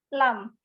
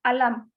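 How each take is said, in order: First: The word begins with an l sound. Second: The word begins with a vowel sound. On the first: "Malahan ada yang yang bilangnya lam" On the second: "itu ada yang menyebutnya alam"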